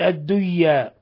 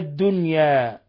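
First: The n sound merges into the following sound. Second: The n sound is clearly pronounced. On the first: The speaker calls it wrong. "فلا نقول الدية" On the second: The speaker calls it right. "وإنما الدنيا"

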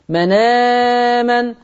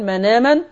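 First: The long vowel is held for four counts. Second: The long vowel is held for two counts. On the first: "والتوسط" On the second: "القصر"

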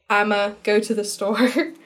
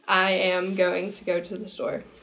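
First: 'I am going to' is shortened to one syllable. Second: 'I am going to' is said in full.

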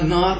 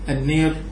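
First: The long vowel is an open 'a' sound. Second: The long vowel is tilted toward an 'e' sound.

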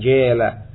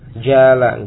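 First: The long vowel is tilted toward 'e'. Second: The long vowel is an open 'a' sound. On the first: The speaker calls it wrong. "bukan jela" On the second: The speaker calls it right. "Tidak bisa diimalahkan dia"

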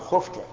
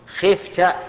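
First: The first vowel is a u sound. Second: The first vowel is an i sound. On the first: Others feared you, with no confusion. The speaker calls it right. "نقول بالضم" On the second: Others feared you, though it can be mistaken for you feared. The speaker calls it wrong. "على وجه الكسر وش نقول؟"

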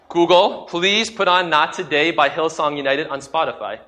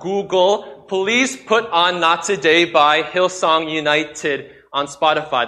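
First: The words are spoken at a normal, casual pace. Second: The words are spoken slowly and carefully enunciated.

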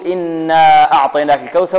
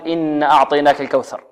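First: The vowel after the n is held long. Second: The vowel after the n is cut short. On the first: The speaker calls it right. "هنا نقول" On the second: The speaker calls it wrong. "ولا نقول"

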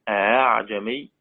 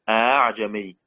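No difference in how they are said.

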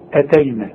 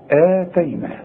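First: The first vowel is short. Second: The first vowel is held long. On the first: "عارف لو الهمزة دي فوق الألف تقول إيه؟" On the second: "تلاقي الهمزة في وسط السطر وبعدها المد"

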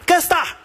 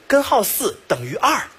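First: The syllables are swallowed into two short sounds. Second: Every syllable is pronounced fully and clearly. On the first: The speaker calls it wrong. "已经开始吃字啊" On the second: The speaker calls it right. "你把你的舌头捋清再给我说一遍啊"

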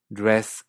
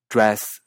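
First: The vowel is a mid e like Spanish e. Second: The vowel is said with the tongue pulled back. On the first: "Estados Unidos" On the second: "comparando Canadá"

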